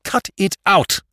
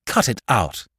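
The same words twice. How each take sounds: First: High, hard, each word separated; savage. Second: Curt order, understated anger; crying out. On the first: Jimmy repeating his order to Spike, savagely. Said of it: "said Jimmy savagely". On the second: Jimmy silencing Spike about the girl, curt cry. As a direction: cut in firmly. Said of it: "he cried". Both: A narrator's reading.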